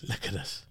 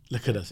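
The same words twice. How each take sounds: First: Breathy whispered echo. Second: Said in the usual way. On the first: Acted. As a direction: whisper it back softly. Echoing co-host in a whisper.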